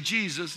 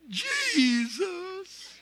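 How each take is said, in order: First: The word is said plainly in two syllables. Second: The word is drawn out into three syllables. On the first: "You don't say Jesus" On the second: "The only way you say that is, ... It's three syllables"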